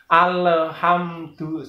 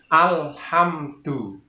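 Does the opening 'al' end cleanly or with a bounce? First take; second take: bouncing; clean. First: The 'al' ends with an echoing bounce. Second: The 'al' ends cleanly with no bounce. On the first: The speaker calls it wrong. "ini contoh yang salah" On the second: The speaker calls it right. "Jadi harus bersih"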